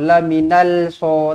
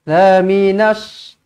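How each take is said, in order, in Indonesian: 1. Bunyi l diucapkan dengan jelas sebelum s. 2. Bunyi l menyatu sepenuhnya ke dalam bunyi s. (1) "tak nak, salah" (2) "terus masukkan ke dalam huruf shad"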